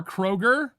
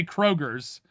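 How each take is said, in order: First: Said in the usual way. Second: "Kroger's" with a z sound tacked on the end; "Kroger's" ending in an extra buzzed s; added S. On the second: Shown as a demonstration. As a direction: say "Kroger's", adding the Ohioan final s. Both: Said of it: "like adding S's to things".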